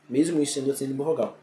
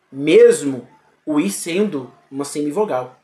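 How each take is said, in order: First: "Mesmo o I sendo uma semivogal" repeated fast and much softer, almost an aside; quick quiet repeat. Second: "Mesmo o I sendo uma semivogal" said at full volume with "mesmo" leaned on; stressed statement. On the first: Teacher murmuring the rule again to herself, quiet and fast. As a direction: toss the rule off again under the breath. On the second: Teacher stating the rule to students, full voice. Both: Shown as a demonstration.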